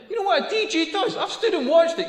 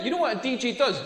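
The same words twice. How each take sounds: First: High-pitched rhetorical question. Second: Said in the usual way. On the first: Real, not acted. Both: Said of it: "repeated rhetorical question".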